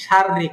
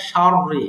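First: শাররি with both র thin and light; শাররি, thin r throughout. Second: শাররি with a heavy, thick first র; শাররি, heavy then thin. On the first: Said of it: "রড দুইটা উচ্চারণই পাতলা করেন". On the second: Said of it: "not শাররি এরকম বলেন না". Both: Shown as a demonstration.

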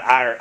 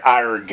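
First: "ar-" cut off with no final g; wrong pirate arr. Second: "arg" said with a hard final g; pirate arg. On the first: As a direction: say "ar-" clipped, no g at the end. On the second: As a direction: end "arg" on a clear g sound. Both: Shown as a demonstration. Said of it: "Not ar".

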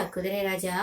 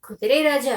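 First: Soft, low teasing echo; playful teasing. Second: Playful call, pitched up at first; playful teasing. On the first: Princess's friend coaxes the horse, low playful echo. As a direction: drop the repeated call down low and soft. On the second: Princess's friend jokingly addresses the horse, teasing call. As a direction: tease with a lively, louder call. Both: A narrator's reading. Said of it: "வேடிக்கையாக".

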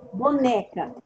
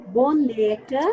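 First: Said in the usual way. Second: Boneca with NE drawn out; stress on NE. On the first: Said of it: "Considerando a posição da sílaba tônica". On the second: Shown as a demonstration. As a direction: lean on NE in Boneca, ending upward. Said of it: "você grifou o né".

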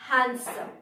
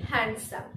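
First: "হ্যান্ডসাম" as HAN-sum; silent d. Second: "হ্যান্ডসাম" as HAND-sum; d as spelt. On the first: Teacher showing the slight difference, "হ্যান্ডসাম" as HAN-sum. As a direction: say "হ্যান্ডসাম" without any d sound. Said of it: "slight difference". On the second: Teacher showing what people say from spelling, "হ্যান্ডসাম" as HAND-sum. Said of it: "তাই আমরা বলি". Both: Shown as a demonstration.

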